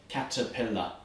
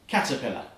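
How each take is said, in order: First: The word is said moderately fast. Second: The word is said as fast as possible.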